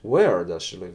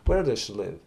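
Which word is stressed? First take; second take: where; live. First: The word where carries the strongest stress. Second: The stress falls neutrally, mainly on live. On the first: The speaker specifically wants to know the place. "если ты хочешь спросить, тебя интересует где, то ты говоришь" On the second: The speaker is asking in general. "А если ты в общем-то говоришь"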